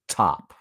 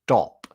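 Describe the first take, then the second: First: The first consonant has a puff of air. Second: The first consonant has no puff of air.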